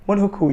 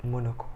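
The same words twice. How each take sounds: First: Monocle said higher and louder, falling; proud correct word. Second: Said in the usual way. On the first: Shown as a demonstration. Vlogger corrects herself, stressing the word Monocle. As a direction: announce Monocle like you got it right. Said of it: "Yes, that's what they call it".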